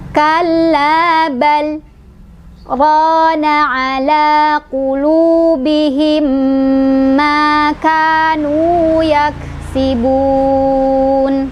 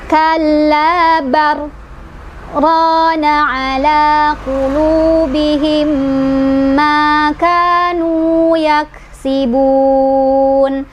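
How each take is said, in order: First: A brief breathless break comes after 'bal'. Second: The l merges into r with no break. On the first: The speaker calls it right. "berhenti tanpa mengambil nafas" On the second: The speaker calls it wrong. "Kita udah masukin lamnya ke ro"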